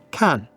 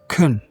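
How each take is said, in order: First: The word is said with a full vowel. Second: The word is said with a weak schwa vowel.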